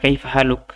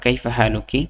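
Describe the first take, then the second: First: The last word ends on a bare 'k' consonant. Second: The last word ends with an 'i' vowel. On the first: "কাফের জায়গায় সাকিন পড়লে কোনো সমস্যা নেই" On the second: "এখানে কিটা উচ্চারণ করতে পারেন"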